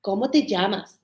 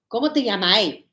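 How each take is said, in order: First: Teacher's model "¿Cómo te llamas?" in full; "llamas" with its final s sounded; textbook Spanish. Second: "llamas" ending as "llamai"; final s dropped for an "ai" ending in "llamai"; Chilean colloquial form. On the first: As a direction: say "¿Cómo te llamas?" for a pupil to repeat. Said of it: "they would say to him, repeat". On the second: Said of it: "she uses the Chilean expressions". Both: Retold or imitated.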